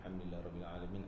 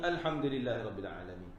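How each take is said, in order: First: It is recited in a soft voice. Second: It is recited in a loud voice. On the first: "kalau baca Fatihah perlahan" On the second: "Kalau Fatihah kita baca kuat"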